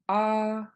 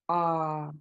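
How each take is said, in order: First: The long vowel is said on a high tone. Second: The long vowel is said on a low tone. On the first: "high tone" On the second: "Long low A"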